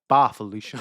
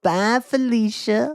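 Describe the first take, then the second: First: It is said plainly, without any marked tone. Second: It is said with an exaggerated, sassy tone. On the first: It is simply saying goodbye as in the original film. "it's not said like that. It's just literally" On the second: It dismisses someone as the catchphrase is popularly used. "he loves the tone of voice"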